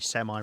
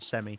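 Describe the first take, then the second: First: It is said with an American pronunciation. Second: It is said with a British pronunciation. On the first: This is how the listener says it. "you say semi" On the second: This is how the speaker's own people say it. "rather than semi"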